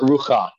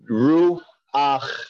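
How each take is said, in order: First: The word ends with a "cha" sound. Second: The word ends with an "ach" sound. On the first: The speaker calls it wrong. "Not rucha" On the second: The speaker calls it right.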